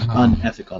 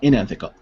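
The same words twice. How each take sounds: First: The word begins with an 'un' sound. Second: The word begins with an 'in' sound. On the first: The speaker calls it right. "I would say un, unethical" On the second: The speaker calls it wrong. "not unethical"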